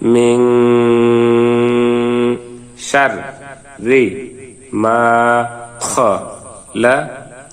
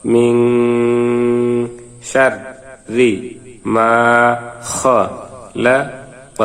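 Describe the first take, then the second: The two takes are said the same way.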